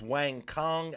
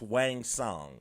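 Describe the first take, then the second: First: The second word begins with a K sound. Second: The second word begins with an S sound. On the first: The speaker calls it wrong. "I've been pronouncing it as" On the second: The speaker calls it right. "I believe it's pronounced"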